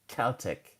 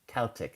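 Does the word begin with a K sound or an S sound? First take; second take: K sound; K sound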